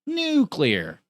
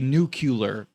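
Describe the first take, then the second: First: No extra vowel follows the c sound. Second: An extra 'u' vowel follows the c sound. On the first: The speaker calls it right. "No, it's nuclear" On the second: The speaker calls it wrong. "they say nuclear. People, I hear people say that, and it's like, is there a U after the C?"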